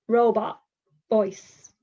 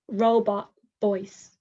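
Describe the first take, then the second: Both takes have the same delivery.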